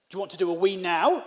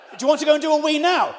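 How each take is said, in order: First: Said in the usual way. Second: Raised voice, higher and faster; louder, quicker, higher insistent question; exasperated. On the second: Retold or imitated. Guest pressing host about the toilet, exasperated.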